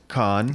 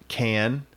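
First: The vowel is like the one in 'cot'. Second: The vowel is like the one in 'cat'. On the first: This way of saying the name sounds pretentious. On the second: This is the ordinary way to say the name.

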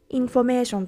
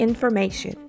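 First: It is said with Japanese katakana-style syllables. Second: It is said with English-like sounds and rhythm. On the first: The speaker calls it wrong. "日本語でそのままインフォメーションというと" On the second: The speaker calls it right. "より英語っぽく発音するには"

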